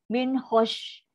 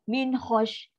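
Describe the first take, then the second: Both takes have the same delivery.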